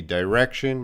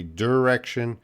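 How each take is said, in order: First: "direction" starting like the word "die"; "direction" with long i. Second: "direction" starting with a short "der"; "direction" with reduced vowel. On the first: Teacher showing students one regional variant, "direction" said as dye-rection. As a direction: say "direction" as dye-REK-shun. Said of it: "People might say direction". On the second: Teacher showing students another regional variant, "direction" said as der-rection. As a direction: say "direction" as der-REK-shun. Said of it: "might say direction". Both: Shown as a demonstration.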